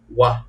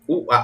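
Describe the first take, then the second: First: The two vowels blend into one gliding sound. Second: The two vowels are said as separate sounds.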